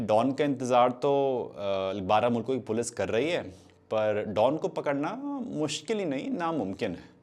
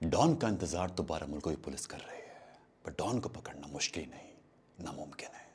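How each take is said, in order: First: It is broken by hesitant filler sounds. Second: It flows smoothly with controlled dramatic pauses.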